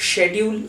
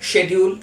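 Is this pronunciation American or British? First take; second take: British; British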